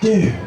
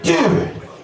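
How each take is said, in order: First: The word is said in a sad tone. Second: The word is said in an angry tone. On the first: The speaker is upset and sorrowful. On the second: The speaker is furious. "You've got anger"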